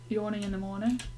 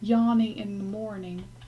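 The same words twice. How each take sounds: First: It is said in a British accent. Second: It is said in a put-on American accent.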